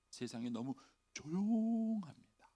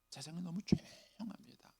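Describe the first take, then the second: First: Slow lament. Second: Whispered, hushed lament. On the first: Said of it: "repeated as whisper". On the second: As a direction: breathe the words in a whisper. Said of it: "whispered repeat". (속삭이듯 세상이 너무 조용합니다) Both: Shown as a demonstration.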